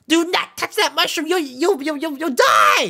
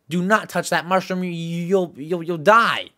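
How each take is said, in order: First: It is said in a funny Toad voice. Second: It is said in a plain, normal voice.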